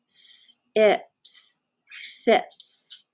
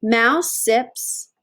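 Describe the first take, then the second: First: "Sips" sounded out slowly, hissing the s. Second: Said in the usual way. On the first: Shown as a demonstration. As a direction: stretch out each sound of "sips". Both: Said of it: "We can sound it out".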